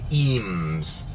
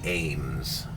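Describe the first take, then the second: First: The name starts with an 'ee' vowel sound. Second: The name starts with an 'ay' vowel sound. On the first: This is how other people say it. "Some people say Eames" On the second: This is how the speaker has always said it. "but I say Ames"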